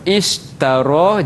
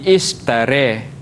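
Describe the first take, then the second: First: The final vowel is an open a sound. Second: The final vowel is bent toward an e sound.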